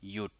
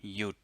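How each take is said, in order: First: The syllable is said with a low tone. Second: The syllable is said with a low tone.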